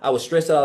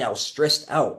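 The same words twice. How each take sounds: First: It is spoken quickly with little emphasis. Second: It is spoken slowly with heavy emphasis. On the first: The speaker calls it wrong. "Like you're you're talking so fast" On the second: The speaker calls it right. "slow down in your videos. Really hit focus on those pain points"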